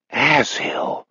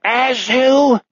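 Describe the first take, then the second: First: Softer, muted non-German curse; weird non-German accent. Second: High, angry non-German cry; angry pseudo-German villain; weird non-German accent. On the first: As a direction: mutter it in an odd pseudo-German accent. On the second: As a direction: call out in a frustrated, high-pitched mock-German accent. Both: Acted. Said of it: "accent melts into that weird non-German".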